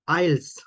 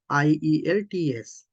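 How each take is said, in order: First: It is pronounced as one single word. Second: Each letter is spelled out separately. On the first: "they use this as a word like this" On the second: "you can pronounce as it is"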